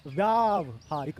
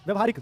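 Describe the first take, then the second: First: व्यावहारिक very slowly, "vyaaav-haa-rik"; correct long first vowel. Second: व्यवहारिक with brief "vya"; wrong short first vowel. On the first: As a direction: hugely stretch the "vyaa" in व्यावहारिक. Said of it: "व्यावहारिक होता है बच्चों". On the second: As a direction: say व्यवहारिक as "vyuh-va-haa-rik". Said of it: "क्या गलती है". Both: Shown as a demonstration.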